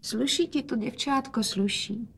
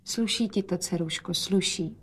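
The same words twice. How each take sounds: First: Soft, slightly higher gentle praise; quietly. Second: Soft, quiet tender words; gentle weary praise; tired father. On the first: Father softly praising his daughter again, quiet. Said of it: "hovořil otec tiše". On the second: Sick father praising his daughter, soft and quiet. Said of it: "řekl otec". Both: A narrator's reading.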